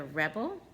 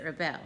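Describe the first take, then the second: First: "rebel" stressed on the first syllable, REB-ul; noun stress on rebel. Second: "rebel" stressed on the second syllable, ri-BEL; verb stress on rebel. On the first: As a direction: hit the start of "rebel", as the noun. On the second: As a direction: hit the end of "rebel", as the verb. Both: Shown as a demonstration. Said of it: "depends on how you read this word".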